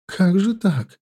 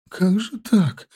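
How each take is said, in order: First: High quavering repeat; trembling voice. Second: Shaky, high, tearful question; trembling voice. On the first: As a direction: shaken and close to tears. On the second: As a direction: voice trembling with distress. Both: Acted. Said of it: "повторяла дрожащим голосом".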